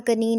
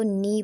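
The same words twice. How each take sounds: First: कनी read wrongly with an audible K; K sounded. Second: नी starting straight on the N; silent K. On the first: Teacher rejecting a misreading, कनी with K sounded. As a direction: pronounce कनी as "ka-nee". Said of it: "मैं कनी नहीं पढ़ रही". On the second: Teacher giving students the correct reading, नी with silent K. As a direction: say नी as "nee", no K sound. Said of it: "जो के है वो silent है". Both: Shown as a demonstration.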